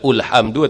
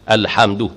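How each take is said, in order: First: The word begins with a u vowel. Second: The word begins with an a vowel. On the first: The speaker calls it wrong. "Tak boleh baca ulhamdu" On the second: The speaker calls it right. "mesti mula dengan fathah"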